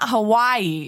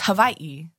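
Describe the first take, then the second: First: The middle consonant is a plain w sound. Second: The middle consonant is a light v sound. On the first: The speaker calls it wrong. "It's not Hawaii" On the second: The speaker calls it right. "With a little bit of a V? Yes"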